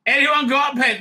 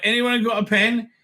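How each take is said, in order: First: Calling out. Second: Said in the usual way. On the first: Retold or imitated. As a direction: call out across the room a second time. Calling out for a pen in crowd.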